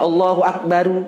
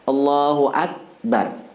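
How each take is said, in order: First: The final r is followed by a vowel. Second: The final r is said with no vowel. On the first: The speaker calls it wrong. "dihidup ke ujungnya ... itu tidak batal, cuma salah" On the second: The speaker calls it right. "sunnah disukunkan"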